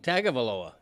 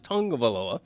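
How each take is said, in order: First: The name is said in an Americanized way. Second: The name is said in the Samoan way. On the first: The speaker calls it wrong. "I probably went the first year after he was drafted saying Tagovailoa" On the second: The speaker calls it right. "the way he pronounces it in the Samoan culture is Tungavaloa"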